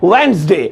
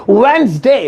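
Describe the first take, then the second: No difference in how they are said.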